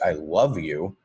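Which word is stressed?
love. The emphasis falls on the word love. The feeling is especially powerful. "change the emphasis to the word love"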